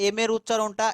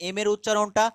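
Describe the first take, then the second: The two takes are said the same way.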